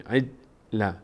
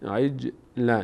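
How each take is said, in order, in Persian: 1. صدای j بدون هیچ لرزشی خشک قطع میشه. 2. صدای j با یه لرزش کوچیک رها میشه.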